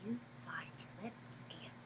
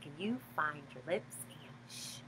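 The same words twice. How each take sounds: First: Fast breathy whisper, no voice. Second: Soft, hushed singsong. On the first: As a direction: whisper it like a secret. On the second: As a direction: bring it right down to a hush. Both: Acted. Hushing part of the song.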